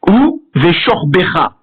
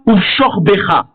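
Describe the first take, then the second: First: A short vowel is heard after the v. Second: No vowel is heard after the v. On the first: The speaker calls it right. "le shewa sera vocal" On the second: The speaker calls it wrong. "et non pas"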